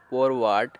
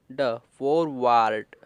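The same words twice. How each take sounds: First: Said in the usual way. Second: forward stretched slowly, syllable by syllable; slow blend. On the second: Shown as a demonstration. Teacher blends forward slowly for learners.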